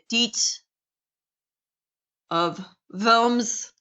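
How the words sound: Worms is said with a German accent, W like V. "proper pronunciation with this of this would probably be"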